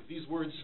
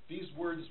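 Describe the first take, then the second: Both takes have the same delivery.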